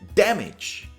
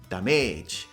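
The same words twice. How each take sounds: First: The stress is on the first syllable. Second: The stress is on the second syllable. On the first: The speaker calls it right. "The stress is on the first part of the word" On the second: The speaker calls it wrong.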